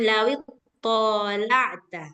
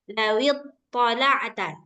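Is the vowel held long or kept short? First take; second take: long; short. First: The vowel is drawn out and held long. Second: The vowel is kept short and quick. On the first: The speaker calls it wrong. "Jangan ... dia udah jadi panjang" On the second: The speaker calls it right. "Cepat-cepat dia"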